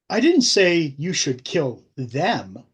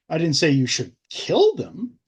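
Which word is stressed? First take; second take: them; kill. First: The stress falls on the word 'them'. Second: The stress falls on the word 'kill'.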